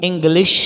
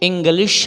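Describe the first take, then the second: No difference in how they are said.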